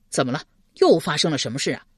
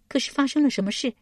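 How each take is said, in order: First: Quick, concerned man's query; hurried question. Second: High-pitched surprised woman's question. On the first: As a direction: ask hastily in the usual pitch. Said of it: "忙问道". (急忙追问) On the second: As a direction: ask in a high character voice, taken aback. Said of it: "极是意外，问道". (高声意外地问) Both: A narrator's reading.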